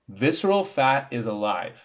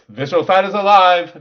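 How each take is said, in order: First: It is said in the speaker's normal voice. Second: It is said in a changed, put-on voice.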